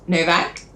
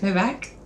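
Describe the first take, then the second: First: The name is said loudly and clearly. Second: The name is said quietly, almost swallowed.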